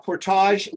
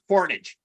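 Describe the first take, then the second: First: The ending is pronounced the French way, like ahzh. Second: The ending is pronounced like the English word age. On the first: "we'll give it the French French pronunciation" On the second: "out west, no, that's Portage"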